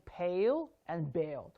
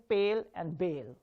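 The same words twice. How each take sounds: First: "pale" with a puffed p and gliding diphthong; correct aspirated P. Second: "pale" and "bale" with unaspirated p and pure vowel; no puff of air starting "pale"; wrong pronunciation. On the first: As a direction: burst of air starting "pale", then "bale" without it. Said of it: "I'm saying pale and bale". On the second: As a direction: say "pale" with an airless p. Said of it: "I'm not saying pale and bale". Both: Shown as a demonstration.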